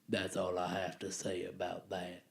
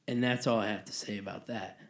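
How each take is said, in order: First: It is said in a Forrest Gump impression. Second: It is said in an ordinary speaking voice.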